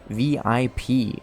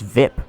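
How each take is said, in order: First: It is said as three separate letters. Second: It is said as one word rhyming with zip.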